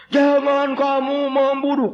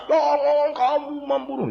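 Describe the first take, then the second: First: High, slow, loud recital. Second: High, slow loud repeat. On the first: Missionary has villagers recite commandments loudly. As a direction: shout it slowly like a drill. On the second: Villagers echo the commandment loudly. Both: Acted.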